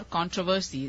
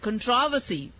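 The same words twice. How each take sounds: First: "controversy" said as KON-tro-ver-see; "controversy" with front stress and full O; stress on first syllable. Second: "Controversy" said as kun-TROV-uh-see; British-style "Controversy" with second-syllable stress. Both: Shown as a demonstration. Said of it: "controversy about how it's meant to be pronounced".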